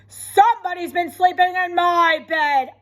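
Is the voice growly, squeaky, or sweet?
growly. A loud, growly Papa Bear voice.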